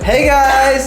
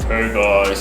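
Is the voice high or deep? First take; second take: high; deep. First: It is said in a higher voice. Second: It is said in a lowered, deeper voice.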